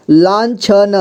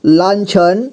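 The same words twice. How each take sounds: First: लांछन sounded out as laan-chha-na; syllable-by-syllable reading. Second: Said in the usual way. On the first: Shown as a demonstration. Teacher showing learners how to join letters, लांछन as laan-chha-na. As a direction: voice every letter of लांछन, final vowel too. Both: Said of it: "जोड़ जोड़ करके पढ़ना है".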